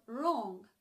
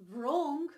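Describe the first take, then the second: First: "wrong" starting directly on the R; "wrong" with a clean R onset; silent W. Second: "wrong" said with a v-like sound before the R. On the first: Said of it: "but wrong". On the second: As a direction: mispronounce "wrong" as "vrong", sounding the W. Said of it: "so it's not wrong". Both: Shown as a demonstration.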